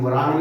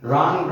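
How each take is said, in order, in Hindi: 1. शब्द r से पहले w की ध्वनि से शुरू होता है। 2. शब्द सीधे r की ध्वनि से शुरू होता है। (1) "लेकिन वरांग नहीं बोला इसको" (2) "इसमें डब्लू नहीं बोला गया"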